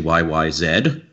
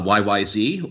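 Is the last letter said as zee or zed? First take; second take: zed; zee. First: The last letter is said as zed. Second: The last letter is said as zee.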